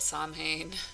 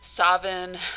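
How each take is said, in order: First: The word is pronounced the way it's spelled. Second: The word is not pronounced the way it's spelled.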